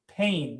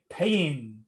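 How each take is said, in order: First: The word is said plainly, without exaggeration. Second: The word is said in an exaggerated, dramatic way. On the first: The speaker calls it right. "You just say pain" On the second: The speaker calls it wrong. "In English we don't say pain... unless you're like in W W F"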